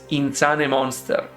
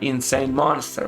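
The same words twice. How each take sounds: First: The name is pronounced with Italian-style sounds. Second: The name is pronounced with English sounds. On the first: The speaker calls it wrong. "I was pronouncing it as if it was Italian" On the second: The speaker calls it right. "which is the correct pronunciation"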